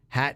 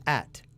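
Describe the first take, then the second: First: The h sound at the start is pronounced. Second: The h sound at the start is dropped.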